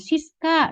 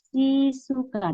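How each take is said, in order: First: The s and k sit together with no vowel. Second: A u vowel comes between the s and k. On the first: The name as said in its original language. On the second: The name as adapted to Japanese sounds.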